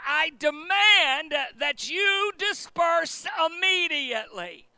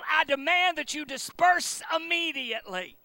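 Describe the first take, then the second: First: It is said noticeably louder. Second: It is said at normal loudness.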